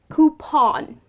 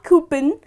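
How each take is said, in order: First: The ending rhymes with lawn. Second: The ending does not rhyme with lawn. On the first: The speaker calls it right. "but it is coupon... it rhymes with the word lawn" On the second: The speaker calls it wrong. "It's not coupon"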